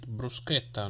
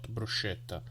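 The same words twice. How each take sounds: First: It is said with the Italian pronunciation. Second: It is said with the American pronunciation. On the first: The speaker calls it right. "I said bruschetta" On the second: The speaker calls it wrong. "not bruschetta"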